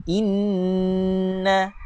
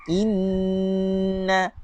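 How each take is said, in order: Both takes have the same delivery.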